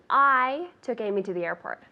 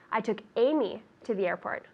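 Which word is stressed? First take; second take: I; Amy. First: The word 'I' is stressed. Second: The word 'Amy' is stressed. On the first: The question is who did the taking. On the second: The question is who was taken.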